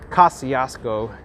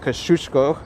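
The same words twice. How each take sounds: First: The name is said the local New York way. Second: The name is said closer to the original. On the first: This is how most local people say it. The speaker calls it wrong. "it's called the Kosciuszko" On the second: This is the name as it should be said. The speaker calls it right. "instead of Kosciuszko"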